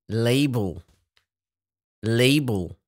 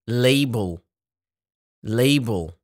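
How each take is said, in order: The two takes are said the same way.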